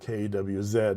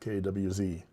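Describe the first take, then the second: First: The letters are said the Canadian way. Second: The letters are said the non-Canadian way.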